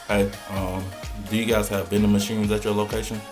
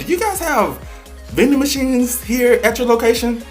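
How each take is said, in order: First: It is said flatly without enthusiasm. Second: It is said with lively enthusiasm.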